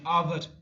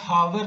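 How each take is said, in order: First: The word starts with a vowel sound. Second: The word starts with an h sound. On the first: The speaker calls it right. "Sound मेरा आ रहा है ओ का start में" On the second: The speaker calls it wrong. "मैं हावर नहीं कह रहा"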